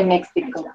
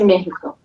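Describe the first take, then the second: First: "Mexico" with the X said as "ks"; "Mexico" with a hard "ks" in the middle. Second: "Mexico" with the X said as a breathed "h"; "Mexico" with an "h" sound in the middle. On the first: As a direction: say "Mexico" as MEK-see-ko. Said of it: "generally X should say". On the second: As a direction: say "Mexico" the Spanish way, MEH-hee-ko. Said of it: "they say Mexico for some reason". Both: Shown as a demonstration.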